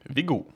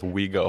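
First: The name has its native Norwegian pronunciation. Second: The name sounds like the English words 'we go'. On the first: "how is Viggo supposed to be pronounced in Norwegian?" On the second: "I just call myself Viggo here so I can say, yeah, like, we go to the bar"

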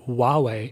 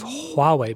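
First: The opening H sound is left silent. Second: The opening H sound is clearly pronounced. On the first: The speaker calls it wrong. "I hear some American people saying Huawei" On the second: The speaker calls it right. "they're not pronouncing the H"

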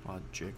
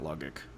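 First: The middle consonant is a soft J sound. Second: The middle consonant is a hard G sound. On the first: The speaker calls it right. "it's a J sound" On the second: The speaker calls it wrong. "it's not logic"

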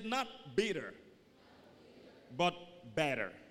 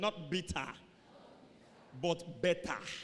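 First: It is said in an American accent. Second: It is said in a Nigerian accent.

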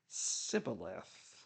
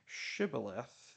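First: It begins with 's', the Ephraimite accent. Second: It begins with 'sh', the Gileadite way.

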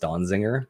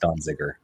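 First: An extra n sound comes before the g. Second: No extra n sound comes before the g. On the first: The speaker calls it wrong. "I do mispronounce the name as Donziger" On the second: The speaker calls it right. "there's no N, so it's Donziger"

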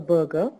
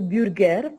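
First: The word is said with an English accent. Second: The word is said with a French accent. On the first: The speaker calls it right. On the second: The speaker calls it wrong.

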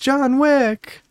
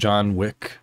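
First: It is yelled loudly in a girlish voice. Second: It is murmured quietly under the breath.

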